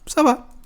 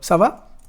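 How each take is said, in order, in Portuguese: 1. A entonação desce no final, como uma afirmação. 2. A entonação sobe no final, como uma pergunta. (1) "Só vai mudar a entonação" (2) "responder o ça va com o próprio ça va"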